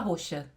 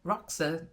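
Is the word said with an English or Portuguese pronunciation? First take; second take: Portuguese; English. First: The word is said with a Portuguese pronunciation. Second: The word is said with an English pronunciation. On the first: "Mas a gente fala roxa" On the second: "Talvez eles dis, pro, pronunciariam Roxa"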